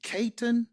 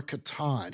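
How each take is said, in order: First: Caton with stress on the first syllable; first pronunciation option. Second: Catan with stress on the last syllable; second pronunciation option. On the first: Host offering one reading of the name, Caton stressed up front. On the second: Host offering another reading of the name, Catan stressed at the end. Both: Shown as a demonstration. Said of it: "How do you say that?".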